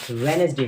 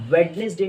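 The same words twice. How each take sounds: First: "वेडनेसडे" with silent first d; correct pronunciation. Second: "वेडनेसडे" with the first d sounded; wrong pronunciation. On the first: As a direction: say "वेडनेसडे" as wen-es-day. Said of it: "इसमें डी silent होता है". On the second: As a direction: say "वेडनेसडे" as wed-nes-day. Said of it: "वेडनेसडे नहीं होती". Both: Shown as a demonstration.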